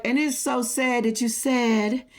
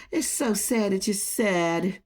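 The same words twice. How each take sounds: First: Said in the usual way. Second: Slow, softer, lower fake sympathy; slow mocking sympathy, dripping sarcasm; mock pity. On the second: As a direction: coo it like a sarcastic condolence. Taunting a rival with fake pity.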